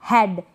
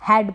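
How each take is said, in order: First: हेड with long "ay", like "hade"; wrong pronunciation. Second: हेड opened to short "ae", as in "had"; correct pronunciation. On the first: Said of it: "नहीं पढ़ेंगे". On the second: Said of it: "हेड पढ़ेंगे". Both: Shown as a demonstration.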